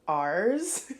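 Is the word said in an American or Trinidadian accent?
American. It is said in an American accent. "an American accent would be like ours"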